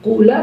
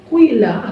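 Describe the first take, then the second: First: The first vowel is a plain u. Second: The first vowel is i mixed with u. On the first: "boleh juga bagi kamu untuk membaca dhamma fa fi'ilnya" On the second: "mencampur harokat kasrah dengan sesuatu dari suaranya dom dhamma"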